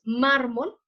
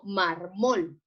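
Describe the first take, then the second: First: "mármol" con fuerza en la primera sílaba, MÁR-mol; acento correcto. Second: "marmol" lento, con fuerza en la última sílaba, mar-MOL; acento equivocado. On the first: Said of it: "Entonces decimos mármol". ("mármol" dicho como grave, MÁR-mol) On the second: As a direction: alarga MOL al decir "marmol". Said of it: "no marmol". ("marmol" dicho como aguda, mar-MOL) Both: Shown as a demonstration.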